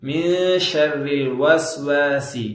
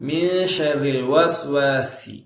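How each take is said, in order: Both takes have the same delivery.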